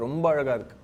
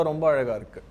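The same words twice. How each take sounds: The two takes are said the same way.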